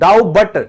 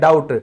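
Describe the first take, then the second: First: The word is said with a b sound. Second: The word is said without any b sound. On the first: The speaker calls it wrong. "डाउ बट नहीं बोलते ना" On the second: The speaker calls it right. "इसको डाउट कहा जाएगा, बी silent है।"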